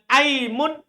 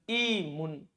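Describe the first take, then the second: First: The first vowel is an 'a' sound. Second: The first vowel is an 'i' sound. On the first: "Boleh kasro, boleh fathah" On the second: "Boleh juga antum bilang apa? I"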